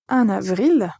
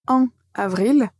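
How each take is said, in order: First: The n sound links into the next word. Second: The two words are said separately, without linking. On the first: The speaker calls it right. "la deuxième prononciation, qui est la bonne prononciation" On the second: The speaker calls it wrong. "tout d'abord"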